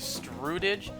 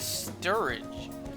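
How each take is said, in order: First: The name starts with a 'stru' sound. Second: The name starts with a 'stur' sound. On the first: The speaker calls it wrong. "I mispronounced the actor's last name" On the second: The speaker calls it right. "No, his last name is Sturridge"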